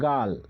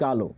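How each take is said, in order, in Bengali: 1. শব্দটি ব্যঞ্জন l দিয়ে শেষ হয়। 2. শব্দটি যোগ করা o স্বরধ্বনি দিয়ে শেষ হয়। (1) "মানে গাল" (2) "গালকে আমরা কি বলছি, গালো"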